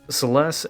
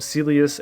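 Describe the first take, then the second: First: The name ends with an 'st' sound. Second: The name ends with an 'us' sound. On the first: The speaker calls it right. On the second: The speaker calls it wrong.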